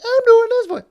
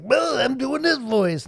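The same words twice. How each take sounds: First: Very high, very loud silly voice; very high character voice. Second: Slower, higher, louder silly voice; put-on character voice. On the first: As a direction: push it right up to the top of the range, full volume. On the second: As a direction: drag it out in a raised, put-on voice. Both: Shown as a demonstration. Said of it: "I can do this voice".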